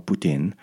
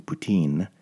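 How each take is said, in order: First: Poutine with a short i; poutine, second syllable rhyming with "pin"; poutine as poo-TIN. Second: Poutine with a long ee; poutine, second syllable rhyming with "seen"; poutine as poo-TEEN. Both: Shown as a demonstration. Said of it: "I say it in a couple ways".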